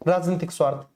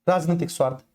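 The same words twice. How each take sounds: The two takes are said the same way.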